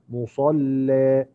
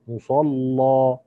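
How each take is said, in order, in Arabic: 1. اللام مرققة والحركة الأخيرة ممالة. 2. اللام مفخمة والحركة الأخيرة مفتوحة. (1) "يرقق اللام، وفي هذه الحالة لابد من تقليل ذات الياء" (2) "الوجه الأول هو تغليظ، اللام ... وعليه فتح ذات الياء"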